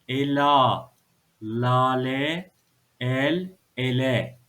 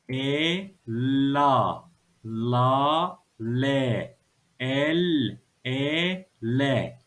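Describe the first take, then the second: First: It is read quickly as whole words. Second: It is read slowly, syllable by syllable.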